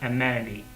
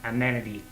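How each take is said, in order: No difference in how they are said.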